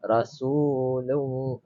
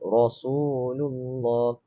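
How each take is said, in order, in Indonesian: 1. Bunyi R itu ringan dan nipis. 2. Bunyi R itu berat dan tebal. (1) "Dia tak baca nipis. Dia tak baca Rasulullah" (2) "Dia baca Rasulullah"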